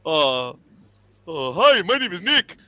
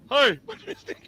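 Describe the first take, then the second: First: Pointed introduction. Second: Laughing introduction. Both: Retold or imitated. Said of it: "I would always say".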